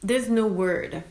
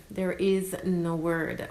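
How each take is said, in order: First: There's said louder and drawn out, slowly; stress on THERE'S. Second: Is pressed firmly, slow and deliberate; stress on IS. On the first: Mother telling first-time moms, stressing There's. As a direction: lean on There's to open the thought. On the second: Mother telling first-time moms, pressing the is. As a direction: land hard on is as a correction. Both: Real, not acted.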